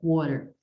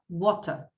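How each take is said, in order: First: The middle T is a soft flap. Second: The middle T is a clear, crisp T. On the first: "No inglês americano, ... Esse T ou D vira som de E" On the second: "no inglês britânico, vai falar water ... ele não vai trocar o T e o D"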